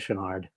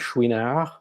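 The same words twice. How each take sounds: First: The name is said with an English pronunciation. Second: The name is said with a French pronunciation. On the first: "in these parts, people say" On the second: "you can pronounce it in the French way if you want"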